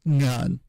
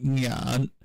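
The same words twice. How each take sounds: First: NGAN short, on a falling three-one tone; ngan, Hakka three-one tone. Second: NYAN on a slow Mandarin dipping tone; nyan, y-glide and dipping tone. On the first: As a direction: say "ngan" as a brief falling syllable. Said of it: "the tone would be something like". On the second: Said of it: "in the dipping tone in Mandarin". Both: Shown as a demonstration.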